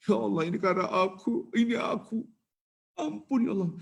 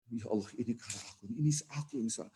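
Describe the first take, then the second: First: Repentant plea. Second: Hushed repentance. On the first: Sinner repenting in his heart. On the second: Sinner repents, weeping at heart. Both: Acted.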